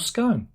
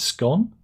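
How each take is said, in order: First: The vowel rhymes with 'cone'. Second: The vowel rhymes with 'gone'. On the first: This is the American way of saying it. "in American English the word is is often pronounced to rhyme with cone" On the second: This is the British way of saying it. "in British English the word scone, right, is generally pronounced trying with the with the word gone"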